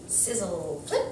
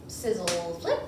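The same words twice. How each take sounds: The two takes are said the same way.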